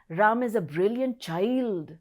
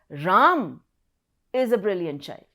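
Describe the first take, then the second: First: The stress falls on the word child. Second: The stress falls on the word Ram. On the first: Even though a child, he is still brilliant. "The emphasis on child now" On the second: It is this person and no other who is brilliant. "It is Ram who is a brilliant child"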